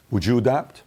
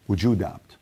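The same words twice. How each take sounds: The two takes are said the same way.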